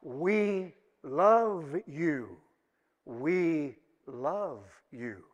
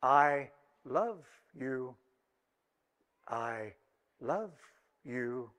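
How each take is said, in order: First: Very slow, tender declaration to God; heartfelt. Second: Slow, low, soft talking-doll voice, word by word; mechanical doll voice. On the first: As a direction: draw each word out from the depths of your heart. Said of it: "from the depths of our heart". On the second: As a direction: recite it like a wind-up doll, each word set apart. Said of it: "a mechanical voice was heard to say". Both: Acted.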